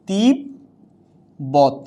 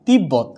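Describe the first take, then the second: First: তিব্বত very slowly as "tib... bot"; syllable-by-syllable demo. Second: Said in the usual way. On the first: Shown as a demonstration. Teacher giving an example of separate b, slow syllable demo. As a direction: draw out "tib" in তিব্বত, pause, then "bot". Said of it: "তখনও কি এর উচ্চারণ স্বতন্ত্র থাকছে". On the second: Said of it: "কি হচ্ছে উচ্চারণটা".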